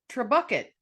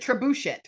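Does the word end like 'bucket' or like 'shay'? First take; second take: bucket; shay. First: The word ends with a 'bucket' sound. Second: The word ends with a 'shay' sound. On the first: The speaker calls it wrong. "I have no idea if I pronounced that correctly" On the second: The speaker calls it right. "It's trebuchet"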